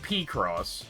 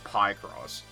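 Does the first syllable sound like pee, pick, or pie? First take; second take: pee; pie. First: The first syllable sounds like the word pee. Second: The first syllable sounds like the word pie. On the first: "I've heard P-Cross" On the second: "I've never heard Pie-Cross"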